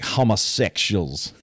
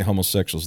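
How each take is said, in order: First: It is said in a drawn-out Louisiana preacher accent. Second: It is said in an ordinary, plain accent. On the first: "They say homosexuals" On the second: "They don't say homosexuals"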